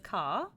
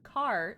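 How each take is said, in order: First: Said in a British accent. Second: Said in an American accent. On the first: "There's caw, which is British" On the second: "Car is the American accent"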